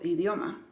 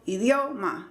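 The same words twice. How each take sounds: First: The stressed syllable keeps normal volume. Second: The stressed syllable is said noticeably louder. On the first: The speaker calls it right. "yo digo idioma" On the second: The speaker calls it wrong. "Yo no digo idioma"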